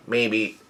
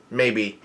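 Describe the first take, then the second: No difference in how they are said.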